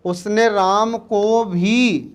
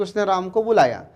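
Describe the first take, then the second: First: उसने राम को भी said slowly, leaning on भी; stress on भी. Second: Said in the usual way. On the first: Shown as a demonstration. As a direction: stretch the phrase and press भी. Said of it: "जब हमने भी लगाया तो ये बल प्रदायक". (भी पर ज़ोर देकर धीरे-धीरे) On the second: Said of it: "ये साधारण वाक्य हो गया था".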